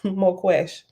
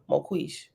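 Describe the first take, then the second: First: The last syllable sounds like esh. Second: The last syllable sounds like ish. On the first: "I pronounced it wrong both ways" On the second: "I pronounced it wrong both ways"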